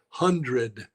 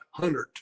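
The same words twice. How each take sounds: First: It is said in the standard way. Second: It is said with a rural twang. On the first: The speaker calls it right. "The word is hundred" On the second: The speaker calls it wrong. "not hundred"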